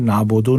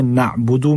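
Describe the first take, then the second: First: नाबुदु as "nabodo"; faulty O ending on नाबुदु; O vowels, wrongly. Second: नाबुदु with a clear "oo" ending; U vowels. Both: Shown as a demonstration. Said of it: "नाबुदु नहीं पढ़ना है".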